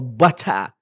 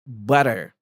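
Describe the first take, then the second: First: It is said in a standard accent, clear t. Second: It is said in an American accent, flapped t. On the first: "خلي ارجع احفظها بالستاندرد" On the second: "لفظ ال- الامريكان"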